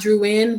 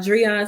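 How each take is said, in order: First: The first syllable sounds like 'drew'. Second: The first syllable sounds like 'dree'. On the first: The speaker calls it wrong. "but not Drew in" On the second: The speaker calls it right. "That's how you pronounce my name"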